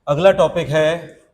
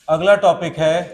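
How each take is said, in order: The two takes are said the same way.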